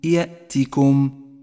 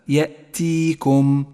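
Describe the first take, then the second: First: The vowel after the t is short. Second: The vowel after the t is lengthened. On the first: The speaker calls it right. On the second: The speaker calls it wrong.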